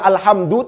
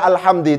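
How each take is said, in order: First: The word ends with an u vowel. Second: The word ends with an i vowel. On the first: The noun is in the nominative case. The speaker calls it right. "yang nyata-nyata dibaca alhamdu" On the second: The noun is in the genitive case. The speaker calls it wrong. "tidak dibaca alhamdi"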